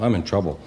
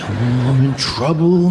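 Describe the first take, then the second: First: It is said flatly, without much emotion. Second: It is said with strong, fearful emotion.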